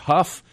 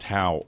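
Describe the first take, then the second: First: It ends in an f sound, rhyming with stuff. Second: It ends in a vowel sound, rhyming with cow. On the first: "or huff" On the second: "That can be pronounced how"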